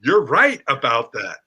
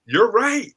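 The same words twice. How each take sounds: First: Said in the usual way. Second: Said higher, with a lift on right; lifted for emphasis. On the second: Shown as a demonstration. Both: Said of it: "here's the words that are magic".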